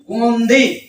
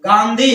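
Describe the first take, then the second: First: The first vowel is a rounded 'aw' sound. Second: The first vowel is an open 'aa' sound. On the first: This is how English speakers said the name. "अंग्रेज कहते थे गोंधी" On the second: This is how local speakers say the name. "हम लोग गांधी बोलते थे"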